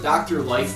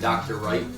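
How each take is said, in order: First: The name begins with an L sound. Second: The name begins with an R sound.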